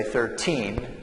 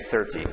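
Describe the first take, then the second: First: Put-on thirteen, TEEN stressed, rising. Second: Thirty, THIR stressed, falling. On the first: Teacher contrasting thirteen with thirty, stress on TEEN. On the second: Teacher contrasting thirty with thirteen, stress on THIR. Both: Shown as a demonstration. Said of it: "the stress here is on the first syllable".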